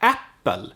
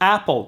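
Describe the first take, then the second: First: The P in the middle is held long. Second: The P in the middle is short. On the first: "in Swedish it's more like apple" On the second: "the P is short in English"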